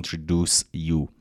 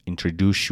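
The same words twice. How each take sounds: First: "introduce you" with a clean s, then a separate y; unlinked S. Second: "Introduce you" run together as "introdu-shoo"; SH link. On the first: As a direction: keep the s in "introduce you" crisp, no sh blend. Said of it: "درسته س بگید". («introduce you» با س و ی جدا از هم) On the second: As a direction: blend the s and y of "Introduce you" into a sh sound. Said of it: "نگفتم introduce you". («Introduce you» با صدای ش، چسبیده به هم) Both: Shown as a demonstration.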